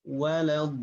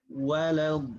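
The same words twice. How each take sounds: Both takes have the same delivery.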